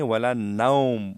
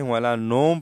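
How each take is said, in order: First: ولا نوم slowly, as "naum" with the au glide; correct lin vowel. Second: ولا نوم with a plain o in نوم; نوم said flat like Urdu; wrong way demo. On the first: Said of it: "اس طرح ہم پڑھیں گے". (واو لین کے ساتھ ولا نوم) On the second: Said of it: "نوم نہیں". (غلط نوم) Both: Shown as a demonstration.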